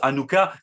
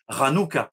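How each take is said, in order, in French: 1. Le mot commence sans son de R guttural. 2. Le mot commence par un son de R guttural. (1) "Donc on prononce Hanouka" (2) "mais en hébreu, on prononce Ranouka, c'est un ret"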